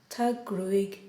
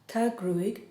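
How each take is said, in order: No difference in how they are said.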